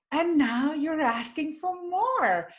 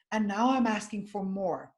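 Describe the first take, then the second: First: Higher, slower, with a lift of delight; bright, uplifting reframe. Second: Said in the usual way. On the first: Retold or imitated. Reframing the woman's words for her, higher and uplifting. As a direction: hand the line back as good news. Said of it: "And I said". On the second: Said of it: "she was saying".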